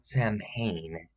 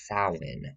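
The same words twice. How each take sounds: First: Samhain said as written, "sam-hane"; wrong pronunciation. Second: Samhain said "SOW-in", a falling close; Samhain as "sow-in", like a proud expert; correct pronunciation. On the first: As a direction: spell it out: Samhain, SAM-hain. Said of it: "it's not Samhain". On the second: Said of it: "it's not Samhain, it's Samhain". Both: Shown as a demonstration.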